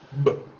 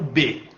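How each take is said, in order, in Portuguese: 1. É dito como som de consoante pura. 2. É dito como a sílaba completa 'bê'. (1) "o som dessa letra é B" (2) "Esse é o B"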